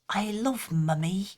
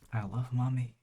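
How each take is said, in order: First: It is said in a put-on British accent. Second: It is said in the speaker's usual non-British accent.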